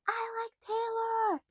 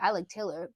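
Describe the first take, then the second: First: It is screamed loudly and excitedly. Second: It is said casually at normal loudness.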